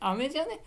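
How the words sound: The pitch climbs steadily toward the end. The speaker calls it right. "どんどんこう上がっていく"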